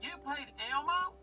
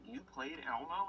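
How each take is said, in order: First: It is said in a put-on character voice. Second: It is said in his normal voice.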